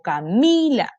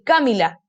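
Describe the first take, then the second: First: The stress falls on the middle syllable. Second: The stress falls on a syllable other than the middle. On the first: The speaker calls it right. "me llamo Camila" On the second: The speaker calls it wrong. "Yo no me llamo Camila ni Camila"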